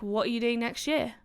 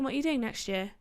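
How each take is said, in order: First: It is said in an aggressive, confrontational tone. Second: It is said in a mild, casual, friendly tone. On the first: The asker is scolding and pressuring. The speaker calls it wrong. "That was a bit aggressive" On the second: The asker is just casually curious. The speaker calls it right. "it's not like that. It's like"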